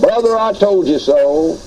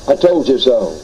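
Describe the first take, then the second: First: Gloating "Brother, I told you so" with a teasing rise; mock gloating. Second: "I told you so" repeated lower with a settled fall; gloating repeat. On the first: Premillennialist waving at a postmillennial brother, lightly mock gloating. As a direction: taunt him lightly as you rise past. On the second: Retold or imitated. Premillennialist rubbing it in to the postmillennial, lower mock gloat. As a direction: rub it in a second time, lower. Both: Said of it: "that old idea of yours of gloating".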